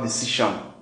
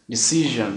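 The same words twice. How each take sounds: First: The middle consonant is a voiceless 'sh' sound. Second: The middle consonant is a voiced 'zh' sound. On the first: The speaker calls it wrong. "not decision" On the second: The speaker calls it right. "Decision, not"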